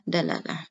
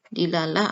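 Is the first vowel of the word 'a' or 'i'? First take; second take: a; i. First: The first vowel is an a sound. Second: The first vowel is an i sound. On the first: "atau dalah dalalah" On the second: "dilalah bisa dibaca dilalah"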